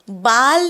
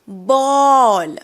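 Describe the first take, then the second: First: The vowel is an open, unrounded 'ah'. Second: The vowel is a rounded 'aw'. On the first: The speaker calls it wrong. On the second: The speaker calls it right.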